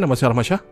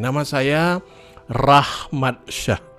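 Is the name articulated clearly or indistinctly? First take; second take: indistinctly; clearly. First: The words are blurred together and hard to catch. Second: Each word is articulated clearly and distinctly. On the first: The speaker calls it wrong. "Kapan menjadi tidak jelas?" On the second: The speaker calls it right. "nama yang jelas itu seperti apa? Contohnya seperti ini"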